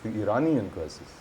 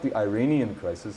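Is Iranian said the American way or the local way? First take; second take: local; American. First: Iranian is said with the local pronunciation. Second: Iranian is said with an American pronunciation. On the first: The speaker calls it right. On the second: The speaker calls it wrong.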